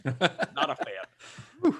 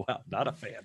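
First: Drawn-out, slow repeat with a laugh; slow echo. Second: Said in the usual way. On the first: Acted. Host echoing his verdict on the review, slow and amused. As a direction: stretch it out, amused.

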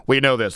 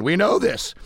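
First: Lower, steadier repeat; dialed down low. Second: Scratchy, breaking voice. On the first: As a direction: bring it down low to save the voice. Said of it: "dialing it down low today". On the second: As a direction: voice cracking, scratchy. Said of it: "there goes that scratchy voice again". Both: Real, not acted.

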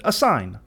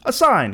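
First: Said in the usual way. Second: Higher, louder Fortunato. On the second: A narrator's reading. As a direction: pitch it up as the demanding guest. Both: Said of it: "he said".

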